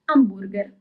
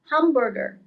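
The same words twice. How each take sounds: First: It begins with a vowel, no h sound. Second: It begins with an audible h sound. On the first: This is the Italian way. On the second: This is the English way.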